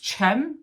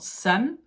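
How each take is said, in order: First: The name is said with its Turkish pronunciation. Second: The name is said with an English S sound. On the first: The speaker calls it right. "I think it's Cem" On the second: The speaker calls it wrong. "not Sem"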